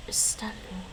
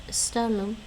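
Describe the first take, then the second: First: Whispered repeat. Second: Said in the usual way. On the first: Shown as a demonstration. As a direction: whisper the word Istalum softly, unvoiced. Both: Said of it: "Istalum Alapa".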